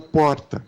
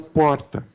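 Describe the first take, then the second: First: The R is a quick single tap. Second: The R is a quick single tap.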